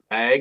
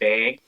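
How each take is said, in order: First: The word is said in a plain accent. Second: The word is said in a Minnesotan accent. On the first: "the word bag" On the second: "they say bag"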